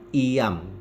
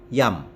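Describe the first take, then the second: First: The i is a separate vowel syllable. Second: The i is a y glide, one syllable. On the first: The speaker calls it wrong. "bukan iyam" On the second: The speaker calls it right. "diucapkan seperti Y dalam kata ayam"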